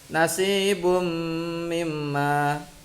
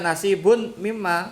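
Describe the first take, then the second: First: The n merges into the nasalized m. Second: The n is kept separate before the m. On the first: The speaker calls it right. "meleburkan bunyi nun sukun atau tanwin ke huruf idgham dengan didengungkan" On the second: The speaker calls it wrong. "Jangan dibaca nasibun mimma. Nah, itu berarti bukan idgham"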